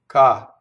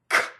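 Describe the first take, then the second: First: The k is released without a puff of air. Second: The k is released with a puff of air. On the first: "the Italian K is, if you think about g, ka" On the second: "the English K is like this, ... We put a puff of air through it"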